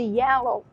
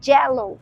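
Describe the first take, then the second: First: The word is said with a standard English first sound. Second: The word is said with a Spanish-influenced first sound. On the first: This is the usual English pronunciation. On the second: This is how a Spanish speaker said it.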